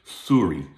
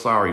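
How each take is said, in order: First: Exaggerated Canadian "Sorry" as "soo-ree", pitched low; hammed-up Canadian rounded vowel on "Sorry"; Canadian accent. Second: Said in the usual way. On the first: Shown as a demonstration. Speaker shows off the accent to listeners, Canadian accent. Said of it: "that's Canadian accent, you like that?". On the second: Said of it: "that's Canadian accent".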